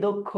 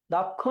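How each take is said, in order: First: দক্ষ with a round "dok"; closed first vowel. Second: দক্ষ with an open "dawk"; open first vowel. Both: Shown as a demonstration. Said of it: "দক্ষ নাকি দক্ষ".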